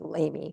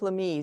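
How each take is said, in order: First: The name is said with an English pronunciation. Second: The name is said with a French pronunciation. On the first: This is how locals say the town's name. "we pronounce it Lamy for that because you know that's the way we would pronounce it" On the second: This is how the bishop's own name is pronounced. "Bishop Lamy is the way that's pronounced"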